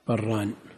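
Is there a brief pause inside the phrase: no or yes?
no. The two words merge without any pause. It sounds like the dual of wheat. "في تثنية البر"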